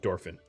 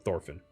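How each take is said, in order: First: The name begins with a D sound. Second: The name begins with a TH sound. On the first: "I'm going to call him Dorfin. Like I'm Spanish" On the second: "that letter is pronounced T H"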